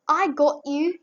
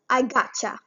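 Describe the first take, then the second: First: The words 'got you' are said in full. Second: The words 'got you' blend into 'gotcha'.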